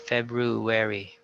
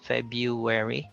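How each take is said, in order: First: The first r sound is pronounced. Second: The first r sound is dropped. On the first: "or with the R" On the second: "We have two acceptable forms"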